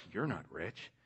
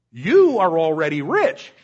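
First: Said in the usual way. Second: Sarcastic. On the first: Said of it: "what he's saying is". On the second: Retold or imitated. Paul mocking the Corinthians' riches, loud sarcasm. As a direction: lay the sarcasm on thick. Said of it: "catching the sarcasm".

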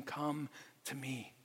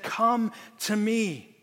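First: Much softer, slow, gentle "Come to me"; tender invitation. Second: Slow, drawn-out beckoning call. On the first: Jesus with arms open to the weary sinner, soft tender invitation. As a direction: draw them in quietly, like Jesus inviting. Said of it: "holding up his arms saying". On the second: Rescuer calling father and son from the side, slow call. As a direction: beckon them out of the riptide. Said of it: "And he said". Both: Retold or imitated.

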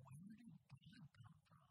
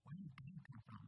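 First: High, soft wondering question rising on "God"; childlike wonder. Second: Said in the usual way. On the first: Retold or imitated. Pastor imitating his five-year-old self, hushed and high. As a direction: ask "Where did God come from?" softly as a puzzled five-year-old. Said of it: "just being like". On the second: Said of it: "trying to figure out".

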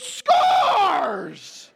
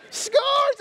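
First: Put-on high, loud triumphant kid shout; excited toddler cheer. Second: Very high, loud victory squeal; squealed kid cheer. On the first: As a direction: yell it like a toddler who just scored. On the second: Retold or imitated. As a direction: squeal it at the top of your voice like a thrilled toddler. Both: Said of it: "he's all excited".

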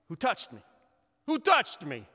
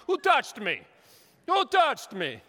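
First: Said in the usual way. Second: Hammed-up Italian accent, higher and louder. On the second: Pastor voices Jesus in a mock Italian accent after gelato. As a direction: play Jesus as a big, loud Italian. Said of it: "so I'm feeling very Italian".

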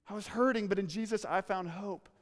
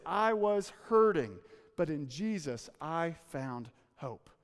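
First: Said in the usual way. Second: Slow testimony. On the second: Acted. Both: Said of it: "She would say this".

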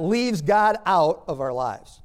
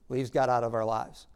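First: Loud, slow weight on "leaves God out"; drawn-out, forceful stress on "God out"; emphatic. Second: Said in the usual way. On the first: Real, not acted. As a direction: hammer "God out" slowly and forcefully. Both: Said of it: "Now, I emphasize that".

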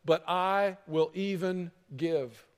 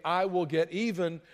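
First: Slow, sincere giving; generous. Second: A mild hint of getting even; grudging. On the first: Preacher voicing the transformed heart, slow and sincere. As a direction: draw it out slowly, sincerely. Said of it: "but a heart that turns and says". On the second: Preacher contrasting the vengeful heart, mildly grudging. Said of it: "a heart that doesn't say". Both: Shown as a demonstration.

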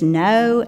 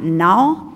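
First: "no" said clearly with a full round o; proper "no". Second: "no" loosened into a casual "naw"; sloppy "no". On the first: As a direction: pronounce "no" correctly, rounding off the vowel. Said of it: "It is "no". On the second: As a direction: say "no" lazily, with an open drawled vowel. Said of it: "It is not". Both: Shown as a demonstration.

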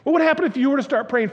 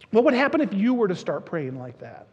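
First: Higher, louder and faster; building preacher's call. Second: Said in the usual way. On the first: Real, not acted. Pastor presses the congregation again, now rising and louder. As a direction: push the question out with fervour.

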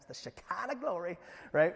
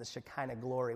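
First: Shekinah glory in a drawn Southern accent, "Shekinah" as "Sha-kah-na"; playful Southern accent on Shekinah glory. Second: Said in the usual way. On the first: Shown as a demonstration. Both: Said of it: "can't really say without using a Southern accent".

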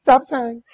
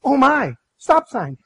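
First: Loud call, pitch barely raised; hollered out. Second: Sudden startled warning, raised voice; alarmed cry. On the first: Wife hollers back at husband, mock-loud call. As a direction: throw it back through the window. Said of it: "she hollers out the window". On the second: Wife warns husband at intersection, startled shout. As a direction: blurt it out as the car nears the stop. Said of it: "Chip's like". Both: Retold or imitated.

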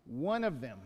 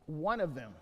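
No difference in how they are said.

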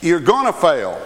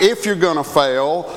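First: "gonna" stressed as a certainty, falling close. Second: "if" set up as the rejected option; stress on IF. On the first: Preacher stating the certainty to congregation, stress on "gonna". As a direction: land firmly on "gonna", then drop. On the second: Preacher setting up a contrast, stress on "if". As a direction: lean on "if", leaving it hanging. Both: Real, not acted. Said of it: "It's not if you're gonna fail".

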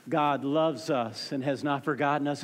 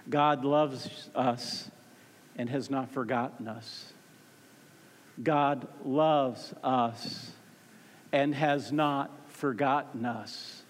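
First: Said in the usual way. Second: Low, very slow, word by word; slow, weighty statement. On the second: Real, not acted. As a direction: space out each word for weight. Sermon sentence repeated slowly for weight.

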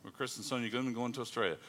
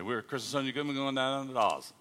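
First: Said in the usual way. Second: Australian-accented introduction. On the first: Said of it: "she interprets for you". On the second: Shown as a demonstration. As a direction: introduce the couple in Aussie speak. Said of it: "I speak Australian".

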